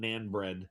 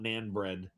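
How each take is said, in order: First: The vowel sounds like the one in 'can'. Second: The vowel sounds like the one in 'can'.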